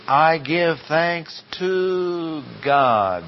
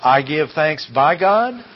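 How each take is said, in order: First: Very slow, "to" drawn out long, falling on "God"; emphatic answer. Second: "by God" lifted at the end as a question; tentative questioning. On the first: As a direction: land the right answer, stretching "to God". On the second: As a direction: try out "by God" doubtfully, rising. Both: Shown as a demonstration. No, that's not it.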